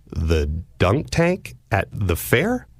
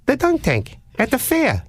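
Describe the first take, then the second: First: Puzzled echo. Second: High, sing-song caller voice on the dunk tank line; odd prank caller. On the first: Confused echo of caller's question. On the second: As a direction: lilt it way up like the weird caller. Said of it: "the voice at the other end says". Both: Retold or imitated.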